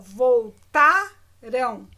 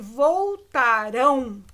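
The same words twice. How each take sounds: First: The stress is on the second-to-last syllable. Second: The stress is on the last syllable. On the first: It happened in the past. "A sílaba tônica é o tá" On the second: It will happen in the future. "A sílaba tônica é o rão"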